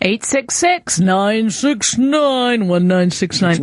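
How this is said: It is read in a put-on radio announcer voice. "I'm not going to do that radio voice"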